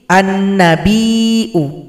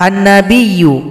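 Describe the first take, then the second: First: The middle has a glottal stop, not y. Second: The middle has a doubled y sound. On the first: This is the reading of a different recitation tradition. "diroba menjadi" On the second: This is the common reading of the recitation. "dibaca biasa saja"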